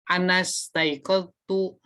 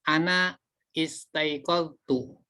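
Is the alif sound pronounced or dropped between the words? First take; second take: dropped; pronounced. First: The words run together, with the alif dropped. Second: The words are separate, with the alif sounded. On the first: "kalau dibaca wasol atau sambung, ya, ini alifnya tidak dibaca" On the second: "ini bisa dibaca terpisah"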